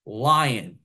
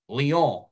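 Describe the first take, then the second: First: Lyon said as English LIE-on; American pronunciation. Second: Lyon said in French as lee-ON, one smooth word; attempted French pronunciation. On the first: Commentator mocking French names, Lyon said as LIE-on. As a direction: Lyon in two English syllables, like lion. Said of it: "this is the American way to say these names". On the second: Commentator trying the French name properly. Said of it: "how I'm doing with the f". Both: Shown as a demonstration.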